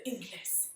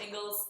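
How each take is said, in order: First: "Ingles" said Spanish-style, ending in an s sound; Tampa pronunciation. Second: "Ingles" said like English "ING-gulz"; local pronunciation. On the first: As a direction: say "Ingles" as ING-lees, no z at the end. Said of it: "here in Tampa, we would say Ingles". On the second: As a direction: say "Ingles" with a z ending, rhyming with "singles". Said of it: "It's Ingles". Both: Shown as a demonstration.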